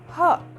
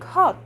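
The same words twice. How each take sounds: First: The final t is stopped, not released. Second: The final t is clearly released. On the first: The speaker calls it right. "They'll say hot" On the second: The speaker calls it wrong. "Native speakers won't say like hot"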